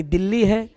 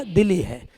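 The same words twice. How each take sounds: First: दिल्ली said with a held double L; long doubled L. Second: दिल्ली said as "Di-li", one light L; short single L. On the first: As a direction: linger on the L in दिल्ली, as in Delhi. Contrasts India's capital with Timor's. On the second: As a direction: say दिल्ली like Dili, without doubling the L. Contrasts Timor's capital with India's. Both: Shown as a demonstration.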